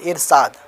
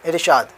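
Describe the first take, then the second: First: The consonant after r is a plain s. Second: The consonant after r is an sh. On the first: The speaker sounds uneducated. The speaker calls it wrong. "इरसाद थोड़ा घटियापन, मतलब जाहिलानापन आवाज़ निकलती" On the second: The speaker sounds educated. The speaker calls it right. "पढ़े लिखे लोग बोल रहे हैं"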